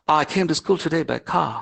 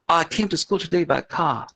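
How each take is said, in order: First: It is spoken in a British accent. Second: It is spoken in a British accent.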